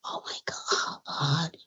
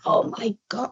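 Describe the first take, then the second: First: Very hushed, low retold reaction; awed aside to self. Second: Softly retold amazed reaction; retold awe. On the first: Guest recalls marvelling to herself, hushed inner awe. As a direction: think it aloud, barely audible. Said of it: "I said to myself". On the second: Guest recalls reaction to [name] at her door, soft awe. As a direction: say it softly, stunned. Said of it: "but I said".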